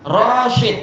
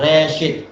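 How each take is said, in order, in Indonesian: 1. Vokal pertama adalah 'a' terbuka penuh. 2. Vokal pertama condong ke 'e'. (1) "roshid bukan reshid" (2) "bukan reshid"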